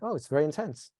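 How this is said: The voice sounds calm and accepting. It is okay for it to be intense. The speaker calls it right. "You're communicating with your voice that it's okay for it to be very intense"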